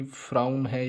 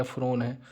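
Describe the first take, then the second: First: फ्राउन with an "au" glide, like crown; "au" pronunciation. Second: फ्रोन with one long "o"; "o" pronunciation. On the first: Teacher contrasting possible dictated forms, फ्राउन with "au". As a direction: say फ्राउन to rhyme with क्राउन. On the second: Teacher contrasting possible dictated forms, फ्रोन with long "o". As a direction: say फ्रोन to rhyme with phone. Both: Shown as a demonstration. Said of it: "फ्राउन है या फ्रोन है".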